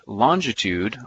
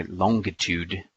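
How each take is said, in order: First: Said in the usual way. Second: "longitude" said slowly with a hard g; "longitude" the English way, a hard g after "long"; English friends' pronunciation. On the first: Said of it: "or as my English friends would say". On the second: Retold or imitated. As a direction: say "longitude" as long-gi-tude, drawn out. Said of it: "as my English friends would say".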